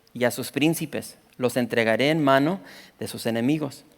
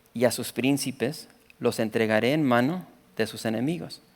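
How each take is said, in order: Both takes have the same delivery.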